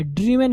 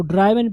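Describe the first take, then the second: First: ड्रिवन with a short i; correct DRIVEN. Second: ड्राइवन with an "eye" vowel; mispronounced DRIVEN. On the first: Teacher correcting a common error, ड्रिवन with short i first syllable. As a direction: say ड्रिवन, short i, not "eye". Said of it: "ना कि ड्राइवन है". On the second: Teacher quoting the very common misreading ड्राइवन, "eye" in the first syllable. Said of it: "हम लोग इसको ड्राइवन पढ़ते हैं". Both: Shown as a demonstration.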